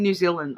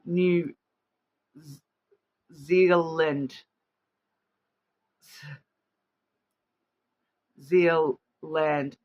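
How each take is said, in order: First: "New Zealand" with a Kiwi accent. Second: Halting, deliberate Aussie "New Zealand"; attempted Australian accent. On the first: Real, not acted. Host admitting she can't say it otherwise, New Zealand accent. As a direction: say "New Zealand" as a New Zealander would, run together. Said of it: "say that in the New Zealand accent". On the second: Shown as a demonstration. Host stopping to think how Aussies say it, careful Australian accent. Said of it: "how do Aussies say it? Aussies say".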